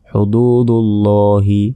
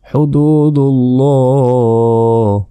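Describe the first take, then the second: First: The word ends with a final i vowel. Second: The word ends on a consonant, no vowel. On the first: The reciter continues past this word. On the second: The reciter stops at this word.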